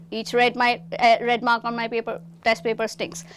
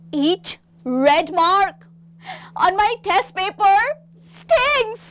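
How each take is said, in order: First: Said in the usual way. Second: Slow, rising to a high loud sting; disgusted. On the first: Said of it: "Please repeat". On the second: Shown as a demonstration. Third student pointing at the red-marked paper, disgusted. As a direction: recoil from the paper as you say it. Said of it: "मुझे घिन आ रही है इससे".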